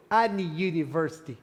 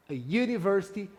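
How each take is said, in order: First: "any university" linked as a vowel; wrong any university. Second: "a university" with a y sound start; short a then "university" with a y glide; right a university. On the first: Teacher shows the wrong "any university" linked. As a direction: run "any university" together. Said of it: "eu não digo any university". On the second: Teacher models "a university" with a y start. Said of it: "não dá". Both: Shown as a demonstration.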